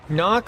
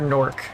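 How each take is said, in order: First: The vowel is said without an r sound. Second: The vowel is followed by an r sound. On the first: The speaker calls it wrong. "Knock or Nork?" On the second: The speaker calls it right. "It's Nork. N O R R K"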